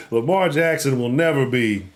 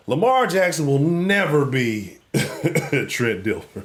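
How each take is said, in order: First: Said in the usual way. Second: Slow, laughing, can barely get it out; cracking up at his own joke, slowly; laughing through it. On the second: Real, not acted. Host laughing at Ravens fans while declaring it.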